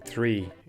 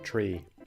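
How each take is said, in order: First: The word starts with a soft 'th' sound. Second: The word starts with a hard 't' sound. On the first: "I have gotten used to saying three" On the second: "instead of tree"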